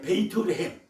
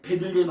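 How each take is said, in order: First: The name is said as Beiteulehem. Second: The name is said as Bedeullehem. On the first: This is closer to the original language. The speaker calls it right. "그 원뜻이 뭐죠? 베이트레" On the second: This is the form used in the Korean Bible. The speaker calls it wrong. "성경에 우리 베들레헴"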